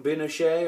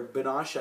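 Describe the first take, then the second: First: First attempt at "Binoche", drawn out; unsure pronunciation. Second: Second attempt at "Binoche", said another way; alternative pronunciation. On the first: Reviewer naming an actress, unsure how "Binoche" is said, tentative pronunciation. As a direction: try "Binoche" slowly, unsure of the name. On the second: Reviewer correcting an actress's name, unsure, alternative pronunciation of "Binoche". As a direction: offer "Binoche" as the other possible pronunciation. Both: Real, not acted. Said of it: "I don't know if I'm saying that right".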